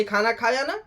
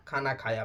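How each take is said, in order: First: "खाना खाया ना" rising at the end; questioning. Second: "खाना खाया" falling, low and soft; answering. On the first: Mother checks he has eaten, questioning "खाना खाया ना". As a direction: ask "खाना खाया ना" with a lift on "ना". Acted question, then its answer. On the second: Mother accepts that he ate, low, soft "खाना खाया". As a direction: drop "खाना खाया" low and quiet, settled. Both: Retold or imitated.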